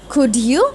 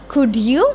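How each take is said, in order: The two takes are said the same way.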